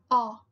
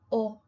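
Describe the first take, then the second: First: The vowel is open and low. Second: The vowel is closed and deep. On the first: The speaker calls it wrong. "jamás en español vas a decir o" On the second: The speaker calls it right. "siempre será o, siempre muy grave y muy cerrado"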